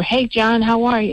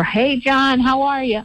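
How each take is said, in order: First: A friendly holler retold, only slightly raised; yelling over. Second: Calling across the yard to a neighbor, a bit higher; yelling over. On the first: Host retelling calling out to her neighbor, a mild mock yell. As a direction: call it across the yard, lightly. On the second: Retold or imitated. Host calling out to her neighbor John, a mild mock yell. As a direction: friendly call over the fence. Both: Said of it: "I yelled over".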